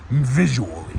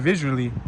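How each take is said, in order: First: It is said in a deep, dramatic trailer voice. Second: It is said in an ordinary speaking voice. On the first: The speaker calls it right. "Use the movie voice" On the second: The speaker calls it wrong. "Don't just say visually"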